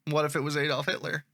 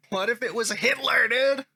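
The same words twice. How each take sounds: First: Said in the usual way. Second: Mildly worked-up commenter, pitch rising; a bit of emotion. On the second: Acted. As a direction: read the comeback with some sauce. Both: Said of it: "He's got a little bit of emotion".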